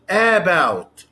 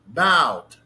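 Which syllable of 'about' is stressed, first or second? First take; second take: first; second. First: The stress is on the first syllable. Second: The stress is on the second syllable. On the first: The speaker calls it wrong. "not about" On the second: The speaker calls it right. "the second syllable is stressed"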